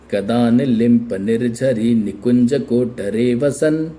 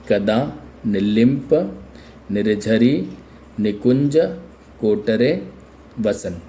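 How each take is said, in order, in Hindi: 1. सभी हिस्से एक ही स्थिर लय में एक साथ बहते हैं। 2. हर शब्द के हिस्से के बाद एक ठहराव आता है। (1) "बिल्कुल लय के साथ में बोल सकते हैं" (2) "जब आपने इतने बड़े शब्द को भिन्न भिन्न रूप में विभाजित किया"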